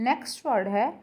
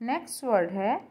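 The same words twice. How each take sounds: The two takes are said the same way.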